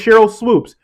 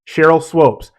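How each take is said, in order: First: The surname has an 'oo' vowel. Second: The surname has an 'oh' vowel. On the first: This is the player's real name. The speaker calls it right. "The woman's name is Cheryl Swoops" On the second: Someone else mispronounced the name. The speaker calls it wrong. "Jason Whitlock continually called her Cheryl Swopes"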